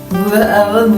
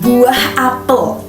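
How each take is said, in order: First: The sounds are mumbled and run together. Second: Every sound is articulated clearly. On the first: The speaker calls it wrong. "kesannya gremeng" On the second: The speaker calls it right. "ngomong yang jelas"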